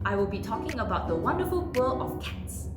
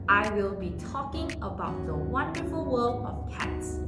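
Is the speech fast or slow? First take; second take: fast; slow. First: It is spoken quickly, with sounds clashing. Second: It is spoken slowly, with clearer sounds. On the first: The speaker calls it wrong. "there's a bit of a struggle there" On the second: The speaker calls it right. "slow down"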